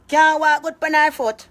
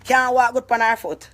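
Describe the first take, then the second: First: High, loud, slow ridicule; mocking shout. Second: Said in the usual way. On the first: Real, not acted. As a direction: jeer it out louder. Mocking aunt's age.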